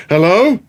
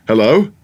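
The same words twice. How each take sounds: First: Higher, louder, more alarmed call; mock deaf calling. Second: A hint of a lost voice calling out; mock deaf calling. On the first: Prankster brother playing deaf, calling louder. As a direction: call into the silence, rising. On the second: Prankster brother calling out, mock puzzled. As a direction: tap the ear and call out, puzzled. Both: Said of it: "simply said".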